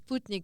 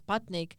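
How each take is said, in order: First: The word is said with Russian vowels. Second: The word is said with anglicized vowels. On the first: The speaker calls it right. "but it's Sputnik" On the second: The speaker calls it wrong. "mispronounced as Sputnik"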